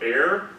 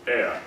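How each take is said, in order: First: American accent with the R clearly sounded. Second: British accent with the R barely heard. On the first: "in American" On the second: "ea in British"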